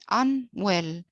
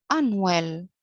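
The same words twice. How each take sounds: First: "unwell" as two parts, un, then well; split in two parts. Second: Said in the usual way. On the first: Shown as a demonstration. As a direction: say "unwell" with a small gap after un. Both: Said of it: "It consists of, uh, two parts".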